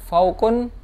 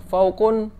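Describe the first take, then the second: Both takes have the same delivery.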